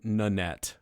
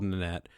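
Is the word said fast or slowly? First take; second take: slowly; fast. First: The name is said slowly and clearly. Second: The name is said quickly. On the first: The speaker calls it right. "which I'm saying Nanette" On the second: The speaker calls it wrong. "I realized I said that really fast"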